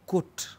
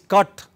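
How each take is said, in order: First: The word is said with a Manchester accent. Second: The word is said with a London accent. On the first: "but in Manchester it is cut" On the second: "is cut in London"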